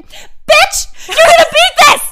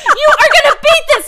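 First: High shrieking yell across the street; retold yell. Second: "You" hit hardest in a high shout; retold yell, stress on You. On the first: Woman yelling encouragement from across the street, high shriek. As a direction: scream it at your friends like a cheerleader. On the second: Stranger repeating her cheer, shouted with "You" stressed. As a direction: yell it again, punching "You". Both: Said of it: "she's yelling at us".

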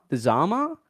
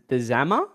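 First: "Zama" as ZAH-muh, higher, as a second try; long-A pronunciation. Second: "Zama" as ZAM-uh, trying it out; short-A pronunciation. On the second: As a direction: say "Zama" with the flat A of "hammer". Trying two pronunciations of the name. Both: Real, not acted.

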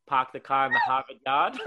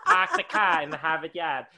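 First: Park the car line in Australian take on Boston accent, louder; Boston-style Australian accent, lilting up on "yard"; Australian-Boston likeness demo. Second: Loud, laughing mock Boston accent; badly faked Boston, flattened "Harvard", falling at "yard". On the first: Shown as a demonstration. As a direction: show Boston-like vowels in Australian accent, YARD rising at the end. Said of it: "we talk like Boston people". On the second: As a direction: ham up a Boston accent, dropping the R in "car" and "yard". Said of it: "that's a really bad Boston accent".

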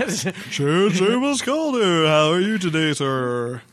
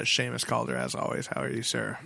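First: Loud, slow, hammed-up host greeting; fake enthusiasm. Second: Low, quiet, listless greeting; unenthused. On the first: Host redoes co-host's greeting after complaint, fake enthusiasm. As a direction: overdo the welcome, stretching it out high. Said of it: "Good fake enthusiasm". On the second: Real, not acted. Host greets his regular co-host, unenthused. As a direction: trail off softly, no enthusiasm. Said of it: "You sound so unenthused".

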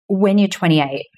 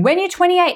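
First: Said in the usual way. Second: A high, fed-up sigh of an answer; exasperated voice. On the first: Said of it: "I heard this voice saying". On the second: Retold or imitated. Inner voice answering her impatience, exasperated. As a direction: play the weary voice answering her. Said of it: "the voice was almost like".

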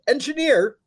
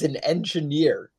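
First: High-pitched exclamation of disbelief; much higher, incredulous outburst; incredulous repeat. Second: Said in the usual way. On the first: Real, not acted. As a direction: repeat it as if you can't believe it. Repeats job title in disbelief.

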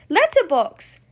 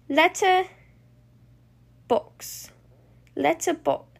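First: Excited burst as it clicks; sudden realization. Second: Halting, word by word; puzzling it out. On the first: Bluey solving the clue out loud, excited. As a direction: blurt the answer out, pitch jumping. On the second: Bluey piecing two clue words together, hesitant. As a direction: think aloud slowly with long gaps. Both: Acted.

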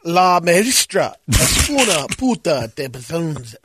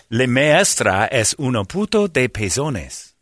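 First: Slow, flat gringo take on pezones; flat gringo Spanish. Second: Pezones said slowly and carefully as pe-zo-nes; slow careful Spanish line with pezones. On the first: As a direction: read pezones like a stiff beginner. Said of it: "D minus". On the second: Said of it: "Never mind. Damn it". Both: Shown as a demonstration.

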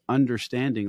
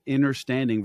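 First: Said in the usual way. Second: "inner" in place of "under" in understanding; understanding said as "innerstanding". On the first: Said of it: "versus understanding". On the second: Shown as a demonstration. Host quoting guest's word for contrast, understanding pronounced "innerstanding". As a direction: swap the start of understanding to "inner". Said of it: "the fact that you said understanding versus understanding".

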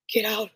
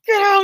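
First: Said in the usual way. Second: "Get out" yelled much higher and louder; mock angry yell. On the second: Doctor screaming "Get out" at the hiding girls, loud. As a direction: throw "Get out" at them full force. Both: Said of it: "he's all pissed off".

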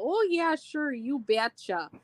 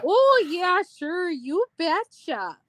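First: Hammed-up Minnesota accent, drawn out; sing-song Minnesota nice, played for laughs; exaggerated upper Midwest Minnesota twang. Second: Bigger, higher, slower Minnesota accent. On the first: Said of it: "I will say the typical Minnesota". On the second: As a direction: ham up the Minnesota drawl even more. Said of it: "the typical Minnesota". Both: Shown as a demonstration.

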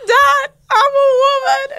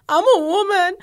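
First: High, loud, slow teary wail; mock wailing cry. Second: Higher, louder teary wail; mock crying. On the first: Teen wailing to her confused dad, mock crying. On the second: Daughter telling dad on the phone, mock crying. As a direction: sob it to dad. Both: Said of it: "I'm, like, crying".

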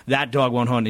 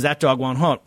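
First: Said in the usual way. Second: Folksy Texas twang, lightly put on; Southern twang. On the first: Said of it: "Southern twang". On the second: Bush brushing off the DNC's attack, in a mild Southern twang. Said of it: "this sort of s-, Southern twang".

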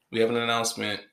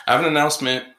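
First: Said in the usual way. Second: Loud, high proclaiming; host playing with ways to announce news; loud announcement. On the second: Shown as a demonstration. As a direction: proclaim it to the room.

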